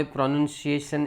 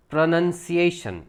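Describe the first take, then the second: First: પ્રોનન્સિએશન with "pro" and a "shi" sound; common mispronunciation. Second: પ્રનન્સિએશન slowly, as "pruh-nun-si-AY-shun"; પ્રનન્સિએશન raised in pitch, short first vowel; correct pronunciation. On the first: Teacher showing what people say, common mispronunciation. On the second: Teacher correcting learners, careful correct pronunciation. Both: Shown as a demonstration. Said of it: "એમ નહીં".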